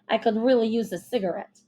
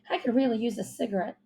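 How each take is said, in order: First: It is said in an old gangster accent. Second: It is said in an ordinary voice.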